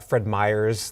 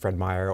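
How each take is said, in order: First: The name ends with an added s sound. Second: The name ends without an added s sound. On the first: The speaker calls it wrong. "people will add an S to Fred Meyer's" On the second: The speaker calls it right. "It's actually Fred Meyer"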